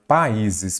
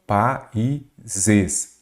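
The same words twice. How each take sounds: First: Said in the usual way. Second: Países slowly split as pa-í-ses; syllable by syllable. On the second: Shown as a demonstration. Teacher separating the word into syllables, syllable by syllable. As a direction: pause between the syllables of Países. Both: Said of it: "separar a palavra em sílaba".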